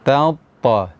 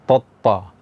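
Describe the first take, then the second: First: The first t is thin, the second heavy. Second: Both t sounds are heavy and dark. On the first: The speaker calls it right. "ta yang pertama tipis, ta yang kedua tebal" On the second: The speaker calls it wrong. "dua-duanya dibaca tebal, misalnya totta, tidak"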